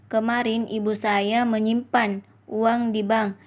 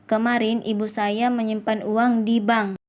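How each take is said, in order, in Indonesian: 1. Tekanan ada pada menyimpan. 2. Tekanan ada pada di bank. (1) "Kalimat keempat mendapatkan tekanan pada kata menyimpan" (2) "kalimat terakhir yaitu enam mendapatkan tekanan pada kata di bank"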